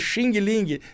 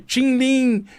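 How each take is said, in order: First: The word ends with a hard G sound. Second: The word ends without any G sound. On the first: This is how people in Brazil say it. The speaker calls it wrong. "é Xing Ling" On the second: This is the Chinese pronunciation. The speaker calls it right. "Não tem o som do G no final"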